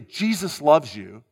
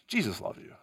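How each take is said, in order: First: It is said earnestly, with strong conviction. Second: It is said flatly, without conviction. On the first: The speaker truly believes it and inspires belief. The speaker calls it right. "my conviction serves to fuel your conviction" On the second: The listener is left unsure what is meant. The speaker calls it wrong. "If I say it like that, you're kind of left to what does he mean by that?"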